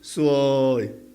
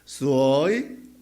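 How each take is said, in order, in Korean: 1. 단어 내내 음높이가 평평하게 유지돼요. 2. 음높이가 내려갔다가 올라가요. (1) "평성으로서 이러면은 재수없답니다" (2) "내려갔다 올라가 해야 아름답다 합니다"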